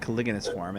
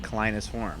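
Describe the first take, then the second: First: Every syllable of the name is pronounced. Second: A middle syllable of the name is left out. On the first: This is how the speaker has always said it. The speaker calls it right. "I've always pronounced it" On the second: This is how the other player says it. The speaker calls it wrong. "you are pronouncing it"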